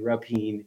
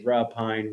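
First: "Rapine" as ruh-PEEN; second mispronunciation. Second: "Rapine" run together as ruh-PINE; weak first syllable, "Rapine" rhyming with pine; common mispronunciation. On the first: Host shows another misreading of his name, "Rapine" as ruh-PEEN. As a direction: end "Rapine" on a long ee, like peen. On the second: Host shows how people misread his name, "Rapine" as ruh-PINE. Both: Shown as a demonstration. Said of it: "A lot of people say Rapine".

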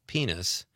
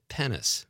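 First: Long EE in "penis"; correct penis. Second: Short E in "penis", like pen; mispronounced penis. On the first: Shown as a demonstration. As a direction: say "penis" as PEE-nus. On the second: Retold or imitated. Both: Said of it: "mispronounced the word".

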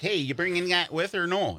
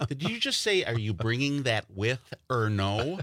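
First: Lightly hammed Wisconsin accent, pitched up; casual Wisconsin question, raised pitch. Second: Incredulous. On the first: Newcomer to L A asking friends along, Wisconsin accent. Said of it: "I have an accent and I say weird words". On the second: Retold or imitated. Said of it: "And then they go".

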